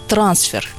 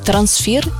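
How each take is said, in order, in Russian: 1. Ударение на первом слоге. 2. Ударение на втором слоге. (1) "Часто говорят «трансфер»" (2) "нужно запомнить трансфер и никак иначе"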